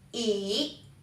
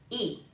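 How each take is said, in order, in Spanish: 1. El tono baja y luego sube. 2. El tono es corto y sin marca. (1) "descendente ascendente"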